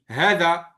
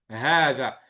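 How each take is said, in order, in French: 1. La première voyelle est brève. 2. La première voyelle est longue. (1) "À l'écrit, on dit hada si on l'aurait lu à l'écrit" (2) "dans la prononciation, on va dire hada"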